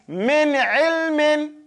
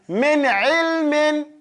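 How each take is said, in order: First: The last word ends with a full '-in' ending. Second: The last word ends with a full '-in' ending.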